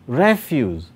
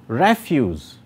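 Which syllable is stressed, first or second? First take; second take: first; first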